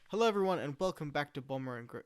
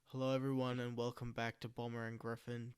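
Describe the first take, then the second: First: It is said in a lively, excited way. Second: It is said in a flat, monotone way. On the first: The speaker calls it wrong. "It's like I'm excited or something" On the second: The speaker calls it right. "It's very monotone"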